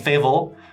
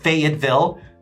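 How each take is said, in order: First: It is said fast with a syllable dropped. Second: It is said slowly with every syllable. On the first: It marks someone who has lived there a while. "people say it very fast here" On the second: It is the standard form. "extra syllable"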